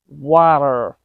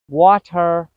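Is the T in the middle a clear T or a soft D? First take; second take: soft D; clear T. First: The middle T is a quick soft D sound. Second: The middle T is a clear T sound. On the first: The speaker calls it right. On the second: The speaker calls it wrong.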